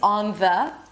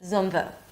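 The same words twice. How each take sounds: First: The vowels are full and the words are separate. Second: The vowels are reduced and the words are linked. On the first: The speaker calls it wrong. "So it's not" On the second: The speaker calls it right. "We reduce the vowel and we connect the words together"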